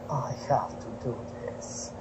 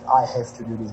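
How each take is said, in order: First: It is said in a Russian accent. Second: It is said in a plain accent.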